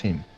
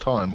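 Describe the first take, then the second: First: The vowel is a short 'ih' sound. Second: The vowel is a long 'eye' sound. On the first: "is it pronounced Tim?" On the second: "that's pronounced time"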